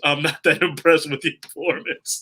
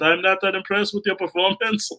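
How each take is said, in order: First: It is said in the speaker's own plain accent. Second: It is said in an imitated French accent.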